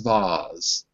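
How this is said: It is said with a British accent. "If I was British, I would say"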